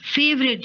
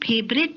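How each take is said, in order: First: It begins with an 'f' sound. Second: It begins with an aspirated 'ph' sound. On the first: The speaker calls it right. "फेवरेट जगह है" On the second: The speaker calls it wrong. "फेवरेट नहीं"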